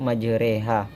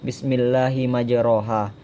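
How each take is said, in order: First: The vowel after r sounds like e. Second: The vowel after r is a plain a. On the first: This is how the word is actually recited. "tapi dibaca yaitu" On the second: This is how the word is spelled. "ditulis di Al-Quran ditulis"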